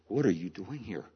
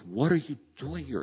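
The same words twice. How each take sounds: First: It is said at a normal, calm volume. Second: It is said with a raised, louder voice.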